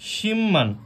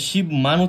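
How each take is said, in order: First: An 'm' sound is heard before 'man'. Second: A 'b' sound is heard before 'man'. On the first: The speaker calls it right. "আমাদের উচ্চারণ হবে সিম্মান" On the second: The speaker calls it wrong. "শিব মান উচ্চারিত করি সেটা সম্পূর্ণরূপে ভুল হবে"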